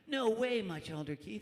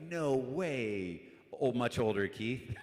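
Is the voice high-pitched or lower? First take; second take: high-pitched; lower. First: It is said in a high-pitched, youthful voice. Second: It is said in a lower, less youthful voice.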